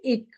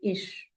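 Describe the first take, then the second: First: The word ends in a hard k sound. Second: The word ends in a soft hissing sound. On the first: The speaker calls it wrong. "Many Indian learners they will say ik, but that is wrong" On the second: The speaker calls it right. "It should be ish, I. That soft sound should be there"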